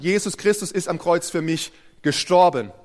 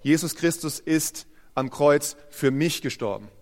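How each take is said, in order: First: The main stress falls on "gestorben". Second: The main stress falls on "für mich". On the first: It proclaims that he died. "Du kannst betonen" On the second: It proclaims that he died for the speaker personally. "mit der Betonung auf den zwei Wörtern davor"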